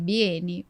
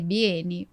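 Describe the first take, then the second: First: The word is read the Brazilian Portuguese way. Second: The word is read the Brazilian Portuguese way.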